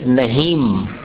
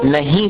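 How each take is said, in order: First: The word ends with a full m sound. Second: The final vowel is nasalized with no closing m. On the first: "ये म जैसा उच्चारण हो गया" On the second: "उस उच्चारण को अनुनासिक कहते हैं"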